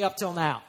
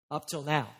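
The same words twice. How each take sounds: First: Casual, untroubled reply; breezy excuse. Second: Low, sober echo after a long pause; ominous, dropped-pitch repeat; grave echo. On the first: Acted. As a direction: toss it off as a confident brush-off to the pastor. Congregant's breezy excuse to pastor. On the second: Real, not acted. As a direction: hand the excuse back as a warning. Preacher echoes excuse as warning.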